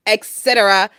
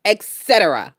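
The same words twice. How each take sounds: The two takes are said the same way.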